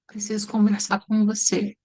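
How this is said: It sounds sad.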